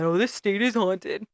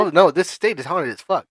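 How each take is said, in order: First: Slow mocking sassy echo. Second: Sassy. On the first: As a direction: mimic her sass, drawn out. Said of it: "a whole lot of sass and attitude". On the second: Real, not acted. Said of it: "sass and attitude in your eyes".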